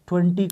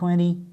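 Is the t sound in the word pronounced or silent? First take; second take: pronounced; silent. First: The t sound is clearly pronounced. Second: The t sound is dropped entirely.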